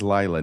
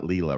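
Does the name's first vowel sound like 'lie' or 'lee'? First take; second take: lie; lee. First: The first vowel sounds like 'lie'. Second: The first vowel sounds like 'lee'. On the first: The speaker calls it right. "it is Lila" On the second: The speaker calls it wrong. "not Leela"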